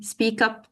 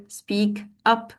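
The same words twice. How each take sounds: First: "speak up" joined as spea-kup; linked words. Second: "Speak up" as two separate words; a small break between "Speak" and "up". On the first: Trainer shows teachers how to link, "speak up" run together. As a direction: carry the k of "speak" straight into "up". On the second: Trainer shows teachers the words before linking, "Speak up" kept apart. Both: Shown as a demonstration. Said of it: "link the two words together".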